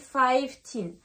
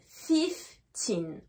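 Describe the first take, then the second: First: The first vowel is long, like 'eye'. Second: The first vowel is short, like 'it'. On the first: The speaker calls it wrong. "Mais en anglais, on ne dit pas fifteen" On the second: The speaker calls it right. "le son ne va plus être I, mais va être I"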